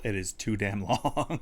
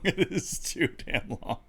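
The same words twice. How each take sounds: First: Said in the usual way. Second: Laughing through the words. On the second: Shown as a demonstration. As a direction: say it while laughing.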